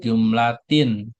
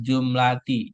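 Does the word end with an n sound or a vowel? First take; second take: n sound; vowel. First: The word ends with an added n sound. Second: The word ends in a vowel, no final n. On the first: The speaker calls it wrong. "jangan jumlatin" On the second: The speaker calls it right. "Di sini dibacanya alal jumlati"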